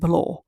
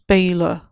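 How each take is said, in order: First: The first syllable sounds like 'bal'. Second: The first syllable sounds like 'bay'. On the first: The speaker calls it wrong. "I was saying it a bit wrong because I said Balor" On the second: The speaker calls it right. "It's Baylor"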